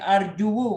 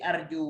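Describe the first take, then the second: First: An extra u vowel follows the final w. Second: The word ends plainly without an extra vowel. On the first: The final letter carries a spoken u vowel. The speaker calls it wrong. "nggak mungkin arju" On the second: The final vowel is left unspoken. The speaker calls it right. "pasti arju, wawnya disukunkan"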